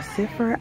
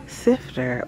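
First: "siffer" with the t dropped. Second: "sifter" with a clear f and t. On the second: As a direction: say "sifter" crisply, f-t in the middle. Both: Shown as a demonstration. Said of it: "but I've heard it called a".

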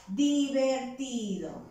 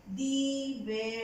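First: Said in the usual way. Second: "divertido" broken into di, ver, tido; spell-along "divertido" with gaps between syllables; syllable-by-syllable dictation. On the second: Shown as a demonstration. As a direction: dictate "divertido" in separate chunks for writing. Dictating the word while writing.

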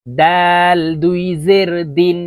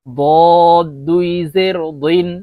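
First: Slow দাল with a light, thin d; thin dal. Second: বদ said as a slow, heavy, rounded dod; thick heavy dod. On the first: Teacher modelling for learners, long দাল with a thin d. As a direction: keep দাল and দিন light, vowel drawn out. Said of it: "দাল পাতলাভাবে উচ্চারণ হবে". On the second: Teacher modelling for learners, বদ as thick drawn-out dod. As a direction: fill the mouth for বদ, a long emphatic d. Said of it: "দদ মোটা করে উচ্চারণ করতে". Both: Shown as a demonstration.

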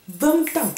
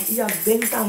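First: "Vingt ans" pitched high and set apart; emphatic repeat. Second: Said in the usual way. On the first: Real, not acted. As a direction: punch out "Vingt ans" higher, on its own.

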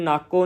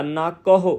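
First: ਨਾਕੋ as two syllables, ending in plain O; wrong dropped H. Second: ਨਾਕਹੁ with a separate short "hu" at the end; clearly sounded H. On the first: Teacher showing what to avoid, ਨਾਕੋ without its H. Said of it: "ਨਾਕੋ ਨਹੀਂ ਕਹਿਣਾ". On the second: Teacher showing correct ਨਾਕਹੁ, clear "hu" ending. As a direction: articulate the final H syllable of ਨਾਕਹੁ. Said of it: "ਇਹ ਹਾਹੇ ਨੂੰ ਔਂਕੜ ਆ". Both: Shown as a demonstration.

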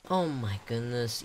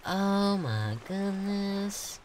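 First: Said in the usual way. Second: High, drawn-out Oh my goodness; amazed. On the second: Real, not acted. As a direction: slowly savour Oh my goodness in awe. Amazed reacting to a detail.

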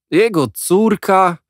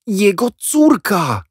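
First: High, loud, slow scornful echo; mock the answer; exasperated outburst. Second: High, loud, slow announcement; triumphant reveal. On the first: Boys exploding at Jack's news, high and scornful. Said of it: "niemal wybuchnęliśmy". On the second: Jack revealing to the boys, high loud and drawn out. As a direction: drop the big secret. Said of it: "powiedział". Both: A narrator's reading.

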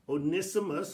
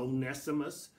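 First: Onesimus said as oh-NISS-ih-mus; short i in the NISS of Onesimus; first pronunciation. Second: Onesimus said as oh-NESS-ih-mus; alternate pronunciation. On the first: Preacher offering both names, Onesimus as oh-NISS-ih-mus. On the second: Preacher offering both names, Onesimus as oh-NESS-ih-mus. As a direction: open vowel in the NESS of Onesimus. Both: Shown as a demonstration. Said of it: "however you want to pronounce it".

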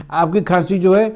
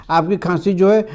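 No difference in how they are said.

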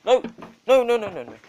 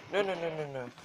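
First: Loud, high, frantic no's; alarmed loud no's; panicked shouting. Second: Said in the usual way. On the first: Real, not acted. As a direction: yell no at the dog in alarm.

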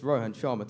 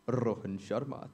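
First: Said in the usual way. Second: Rohan Sharma with tapped r's and short vowels; Indian pronunciation. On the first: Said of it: "to my friends". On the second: Shown as a demonstration. Comedian showing what parents call him, Indian pronunciation of Rohan Sharma. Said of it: "to my parents".

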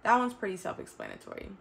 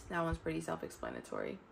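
First: Said in the usual way. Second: Much softer, muttered repeat; quiet aside. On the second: Real, not acted. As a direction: say it again under your breath to yourself.

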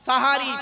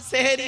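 First: সাহারি said with a clear open a in both syllables, louder; সাহারি, not সেহেরি, open a sounds; correct sahari. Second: সেহেরি with e sounds, the form to avoid; সেহেরি with e vowels, the mistaken form; wrong seheri. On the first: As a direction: stress the right form সাহারি, open a sounds. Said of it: "শব্দটা হলো সাহারি". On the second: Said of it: "সেহেরি নয়". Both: Shown as a demonstration.

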